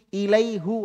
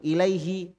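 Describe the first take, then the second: First: The vowel after h is a u sound. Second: The vowel after h is an i sound. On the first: It is heavy and tiring to say. The speaker calls it wrong. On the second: It is easy and smooth to say. The speaker calls it right. "i dengan i enak ketemu"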